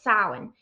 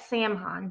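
First: The word is pronounced unlike its spelling. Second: The word is pronounced the way it is spelled. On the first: The speaker calls it right. "but no, it's Samhain" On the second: The speaker calls it wrong. "It looks like Samhain"

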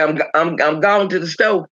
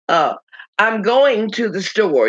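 First: The words are pronounced loosely and broken down. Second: The words are pronounced carefully and precisely. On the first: "You say, ... break these words down and speak incorrectly" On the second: "You don't say"

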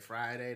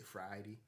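First: It is said the usual, everyday way. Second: It is said the way older people say it. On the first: "They don't say they don't say Friday" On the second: "They say Friday"

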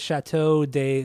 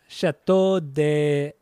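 First: It is said plainly, with no put-on accent. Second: It is said with an exaggerated foreign accent. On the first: "I just didn't have an accent, an over the top French accent" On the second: "That was more Spanish"

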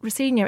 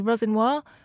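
First: The surname is said in a shortened, anglicized way. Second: The surname is said in its full original way. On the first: This is how most people say the name. The speaker calls it wrong. "my name actually isn't Rossigna" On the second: This is the name as it really is. The speaker calls it right. "it's actually Rossignol"

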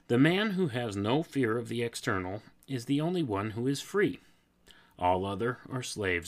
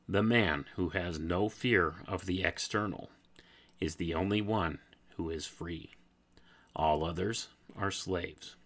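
First: It is read at a normal pace. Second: It is read slowly.

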